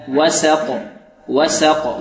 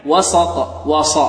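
First: "وسق" slowly with a thin, plain s; light sin. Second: "وسق" said like "وصق"; heavy sin. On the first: Teacher corrects the mistake for students, light sin in "وسق". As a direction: keep the sin of "وسق" light, vowel fronted. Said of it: "والسين مرققة". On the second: Teacher isolates the mistake, emphatic s in "وسق". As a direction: thicken the sin in "وسق" into a sad. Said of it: "نحذر من تفخيم السين". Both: Shown as a demonstration.

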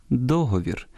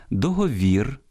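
First: Договір stressed on the opening до-; stress on first syllable. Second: Договір stressed on the final -вір; stress on last syllable. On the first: Host gives the more natural traditional stress, first-syllable stress on договір. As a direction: lift до- in договір, let the rest fall. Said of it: "природніші традиційні наголоси". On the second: Host shows the stress shared with Russian, final-syllable stress on Договір. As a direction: land hard on -вір in Договір. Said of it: "обирають спільний з російським". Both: Shown as a demonstration.

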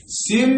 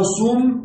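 First: سم with a short i, "sim"; kasra on the sin. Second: سم with a short u, "sum"; damma on the sin. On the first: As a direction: say سم as "sim", i after the s. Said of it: "بكسر السين". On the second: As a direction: say سم as "sum", u after the s. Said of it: "أو سم بضمها". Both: Shown as a demonstration.

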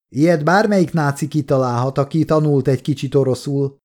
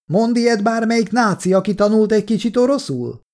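First: Said in the usual way. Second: High-pitched challenge called from a window; yelling. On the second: A narrator's reading. Kolja throws the soldiers' words back, yelling. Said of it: "ordított ki az ablakon".

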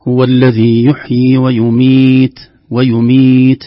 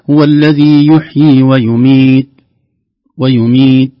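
First: Slow, loud chant with an airy puff ending ويميت; correct recitation. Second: Slow, loud chant with ويميت cut dead on the ت; swallowed final ta. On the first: Tajweed teacher shows listeners the whispered ta, correct recitation. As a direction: recite ويميت long, letting breath escape on the final ت. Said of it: "تحتاج إلى همس للحرف حتى يظهر". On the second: Tajweed teacher shows listeners the mistake, ta left inaudible. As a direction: stop ويميت on a held ت with no breath released. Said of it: "لن تظهر التاء أبدًا". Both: Shown as a demonstration.

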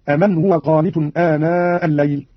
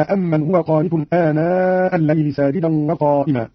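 First: "أمن" as a-man, short m; light single meem. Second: Said in the usual way. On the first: Shown as a demonstration. Teacher demonstrates Qalun's reading, "أمن" with undoubled m. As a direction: say "أمن" without doubling or holding the m. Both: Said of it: "بتخفيف الميم من أمن".

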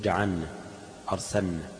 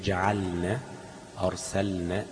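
First: جعلنا said as جعنّا with the lam merged into the nun; dropped lam, wrong. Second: جعلنا and أرسلنا with a distinct clear lam before the nun; clear lam, correct. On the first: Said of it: "يوقع اللام". (نطق خاطئ يوقع اللام في جعلنا وأرسلنا) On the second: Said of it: "لابد من التنبيه على الإظهار". (إظهار اللام بوضوح في جعلنا وأرسلنا) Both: Shown as a demonstration.

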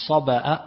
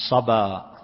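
First: صبأ ending in a glottal stop; with hamza. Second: صبا ending in a long open vowel; no hamza. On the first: Teacher showing students the hamzated form, صبأ with a glottal catch. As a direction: break the final vowel of صبأ with a clear hamza. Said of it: "أما المهموز". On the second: Teacher showing students the form without hamza, صبا ending open. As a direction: let the end of صبا glide open, without a glottal stop. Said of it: "لغير المهموز". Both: Shown as a demonstration.

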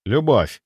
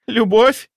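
First: Said in the usual way. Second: Very high, louder disbelieving question; hysterical. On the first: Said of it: "ответил я просто". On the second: A narrator's reading. Mistress hearing he loves another, hysterical high-pitched disbelief. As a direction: echo the word with shrieking disbelief. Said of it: "она засмеялась, истерично, страшно".

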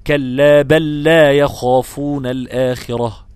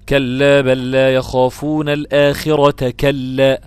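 First: Slow recitation ending at الآخرة, كلا kept apart; correct stop after الآخرة. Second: Slow recitation with the stop on the last كلا, كلا joined to الآخرة; wrong pause on كلا. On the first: Teacher demonstrates the correct reading, slowly chanted. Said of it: "المراد هنا في الآية نفيا واحدا". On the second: Teacher demonstrates the disapproved stop, slowly chanted. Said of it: "وقفك بهذه الطريقة". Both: Shown as a demonstration.

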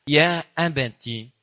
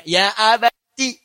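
First: Tender address. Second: Slow, drawn-out loving call; tender address. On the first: Son tenderly asking his father why. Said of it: "Ini yang indah". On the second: Son answering his father with tender respect. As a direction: stretch it out with respect and love. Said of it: "Lihat cara menerjemahkannya". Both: Shown as a demonstration.

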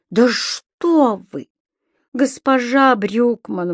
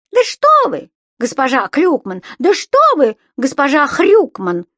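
First: Slow, drawn-out protest, a little higher; dismayed exclaiming. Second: High, loud mocking echo of a protest; господин Пепперминт impression. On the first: Tenant pleading with offended landlady, slow exclamation. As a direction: exclaim in mild dismay, stretching the words. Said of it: "воскликнул господин Пепперминт". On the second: Imp jumping in to insult landlady as tenant, mocking mimicry. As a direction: parrot the tenant's exclamation, squealing it higher. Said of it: "подхватил Субастик голосом господина Пепперминта". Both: A narrator's reading.

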